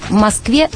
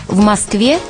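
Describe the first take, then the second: The two takes are said the same way.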